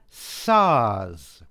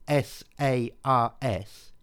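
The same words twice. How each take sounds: First: It is said as one single word. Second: It is spelled out letter by letter. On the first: "if we pronounce this as a word" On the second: "if we pronounce this as letters"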